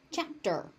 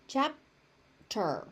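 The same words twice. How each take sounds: First: Said in the usual way. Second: "Chapter" split as chap... ter; syllable by syllable. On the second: Shown as a demonstration. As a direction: hold a gap after the P in "Chapter". Teacher breaks word into syllables.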